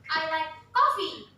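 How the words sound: The word coffee carries the strongest stress. It is coffee, not tea or milk. "Kopi. Saya kopi, bukan teh, bukan susu"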